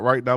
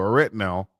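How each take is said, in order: First: Said in the usual way. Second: "right now" with "right" turned into "ret"; dialect "right now". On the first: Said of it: "not right now, but right now". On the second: Shown as a demonstration. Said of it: "but right now".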